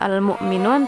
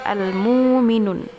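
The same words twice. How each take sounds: First: It has a glottal stop after the first vowel. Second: It has a long vowel after the first consonant. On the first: This is the reading that keeps the hamzah. "bukan al-mu'minun" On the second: The hamzah is replaced by a long vowel letter. "Hamzah diganti dengan waw"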